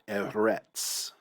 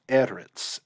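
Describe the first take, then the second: First: The stress is on the last syllable. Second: The stress is on the first syllable. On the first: The speaker calls it wrong. "and not eretz" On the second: The speaker calls it right. "This is eretz"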